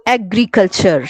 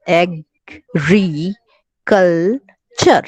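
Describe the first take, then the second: First: Said in the usual way. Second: agriculture very slowly, in separate pieces with pauses; teacher sounding out agriculture piece by piece; broken into syllables. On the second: Shown as a demonstration. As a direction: split agriculture as ag, ree, cul, cher, drawing each out. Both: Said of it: "इसको आप कितने टुकड़ों में करेंगे".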